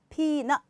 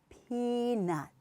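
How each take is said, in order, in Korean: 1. 각 음절이 짧고 따로 떨어져 있으며 세기가 같아요. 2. 첫 음절이 더 길고 더 강해요.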